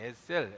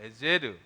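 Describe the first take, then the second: First: The word ends with a soft 'sel' sound. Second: The word ends with a 'zer' sound. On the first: This is the familiar local way of saying it. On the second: This is the original way of saying it.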